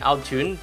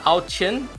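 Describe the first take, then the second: First: The second word sounds like 'jun'. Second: The second word sounds like 'chin'.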